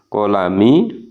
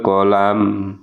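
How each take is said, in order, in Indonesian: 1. Kata ini berakhir dengan vokal i pendek. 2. Kata ini berakhir pada bunyi m mati.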